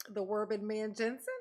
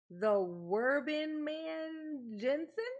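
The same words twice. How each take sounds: First: Said in the usual way. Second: Slow, higher "Werbin Man Jensen" sounded out with a rise on "Jensen"; tentative name read; careful name attempt. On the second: Shown as a demonstration. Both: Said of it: "did I nail it".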